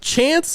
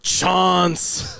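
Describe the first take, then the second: First: The vowel is the flat American 'a'. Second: The vowel is the long British 'ah'. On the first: "like the word you have a chance" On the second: "he's over there going"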